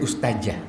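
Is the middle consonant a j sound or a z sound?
j sound. The middle consonant is a j sound. The speaker calls it wrong. "za itu j jadinya"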